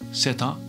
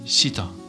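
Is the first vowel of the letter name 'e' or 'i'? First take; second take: e; i. First: The first vowel is pronounced as e. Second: The first vowel is pronounced as i. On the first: This is the usual name of the letter. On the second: This is how modern Greek says the letter.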